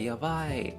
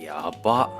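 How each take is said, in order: First: The word ends with a full 'ai' sound. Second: The final vowel is dropped and clipped. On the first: Something is amazingly crazy, said in a nice way. "in a really nicer way" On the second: Something is seriously, intensely crazy. "drop the e"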